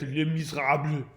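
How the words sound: It is said with a thick German accent. This is how German speakers changed it. "you put that in the mouth of uh, Arnold Schwarzenegger"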